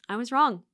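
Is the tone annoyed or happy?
happy. It sounds happy and smiling.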